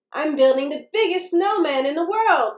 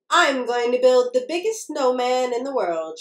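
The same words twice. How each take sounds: First: Mildly proud announcement; storybook mouse showing off a little; proudly. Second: Understated storybook cheer; lightly cheering little mouse; mild cheer. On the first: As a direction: say it with a touch of pride. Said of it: "Molly said proudly". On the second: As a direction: announce a big plan with a touch of cheer. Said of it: "she cheered". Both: A narrator's reading.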